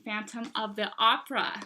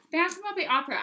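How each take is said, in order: First: Said in the usual way. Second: Higher, louder delighted repeat; excited. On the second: Real, not acted. Book seller thrilled by a surprise title in the collection, excited. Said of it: "I was so excited when I saw that".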